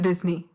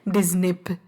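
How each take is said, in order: First: The name ends with an 'ee' sound. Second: The name ends with a 'p' sound. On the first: The speaker calls it right. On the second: The speaker calls it wrong.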